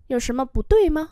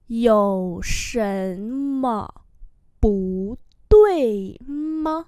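First: Said in the usual way. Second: Very slow, syllable by syllable; slow-motion pronunciation model; slow demonstration. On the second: Shown as a demonstration. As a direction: draw out each tone for learners. Teacher repeats slowly for learners.

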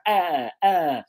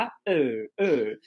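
First: "ah" with the mouth well open; open carrot vowel. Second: "ah" reduced to a lower, relaxed uh; neutral schwa. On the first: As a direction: draw out a stressed, wide-open "ah". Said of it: "no carrot eu abro bem a boca". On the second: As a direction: let "ah" drop to an unstressed uh. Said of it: "Enquanto que no chua". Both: Shown as a demonstration.

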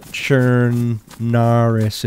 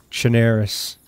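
First: Very slow "Chernarus", chern-NAH-rus with open "ah"; rejected pronunciation. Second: "Chernarus" with an "air" vowel, cher-NAIR-us; slight Boston accent. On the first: Player showing what it is not, "Chernarus" as slow chern-NAH-rus. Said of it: "it's Chernarus". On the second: Player correcting the commenter, "Chernarus" as cher-NAIR-us. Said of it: "See the accent?". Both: Shown as a demonstration.

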